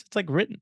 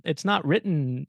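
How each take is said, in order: First: Said in the usual way. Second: "not" slow and leaned on, "it's not written"; stress on not. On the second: Shown as a demonstration.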